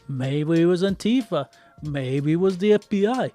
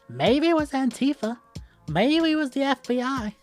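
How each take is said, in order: First: It is said in the speaker's own normal voice. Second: It is said in a put-on, imitated voice.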